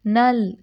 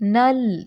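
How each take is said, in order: No difference in how they are said.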